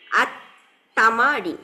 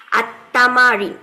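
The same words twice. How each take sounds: First: আত-তামারিন, drawn out very slowly; very slow Arabic word. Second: আত-তামারিন, slow and louder, each syllable clear; slow loud Arabic word. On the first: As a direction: stretch আত-তামারিন out syllable by syllable. (খুব ধীরে টেনে আত-তামারিন) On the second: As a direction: announce আত-তামারিন slowly and loud. (ধীরে, জোরে আত-তামারিন) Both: Shown as a demonstration. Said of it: "অনুশীলনীর কথাটার মানে কি?".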